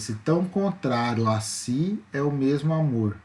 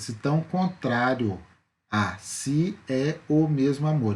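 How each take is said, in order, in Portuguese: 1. As vogais entre as palavras são emendadas, sem pausas. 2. As vogais entre as palavras são separadas por pausas. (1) "Então eu fiz numa emissão só, numa fala só" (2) "Eu não falei desse jeito"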